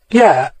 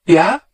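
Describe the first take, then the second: First: A musing yeah with a falling tune; slow considering yeah; thoughtful. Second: A rising questioning yeah; a quick eager yeah?; intrigued. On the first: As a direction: let the word sink, thinking it over. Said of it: "Hilary said thoughtfully". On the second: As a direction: perk up, curious and hopeful. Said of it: "something in her voice caught Hilary's attention". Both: A narrator's reading.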